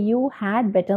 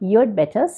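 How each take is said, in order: First: The word 'had' is said in full. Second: The word 'had' is shortened and reduced. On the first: The speaker calls it wrong. "ഇങ്ങനെ you ഹാഡ് better എന്നൊന്നും നമ്മൾ പറയില്ല" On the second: The speaker calls it right. "യു ഹാഡ് എന്നുള്ളത് നമ്മൾ ചുരുക്കിയാണ് പറയുക"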